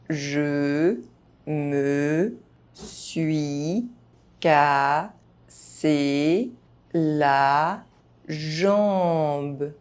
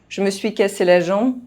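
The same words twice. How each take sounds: First: The phrase is spoken very slowly. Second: The phrase is spoken fast, sounds reduced. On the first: Each syllable can be heard clearly. "very slowly" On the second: This is how native speakers say it. "fast, as a native speaker would do"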